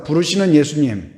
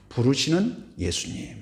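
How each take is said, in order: First: Preacher leading the congregation in a repeated phrase, spoken louder; louder call to repeat. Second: Said in the usual way. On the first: Shown as a demonstration. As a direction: say it out firmly for the congregation to echo. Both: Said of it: "한번 따라서 합니다".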